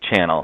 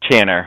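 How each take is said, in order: First: The word ends with an L sound. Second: The word ends with an R sound. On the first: The speaker calls it right. "we say channel" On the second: The speaker calls it wrong. "we don't say channer"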